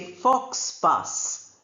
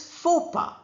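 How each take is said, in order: First: X and S sounds are pronounced. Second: No X or S sounds are pronounced. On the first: The speaker calls it wrong. "We don't say fox pass" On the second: The speaker calls it right. "It is faux pas"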